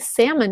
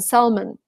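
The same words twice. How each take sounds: First: The L sound is dropped from the word. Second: The L sound is pronounced in the word. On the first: "in America you say salmon. You just lose the L" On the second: "I learned the British version"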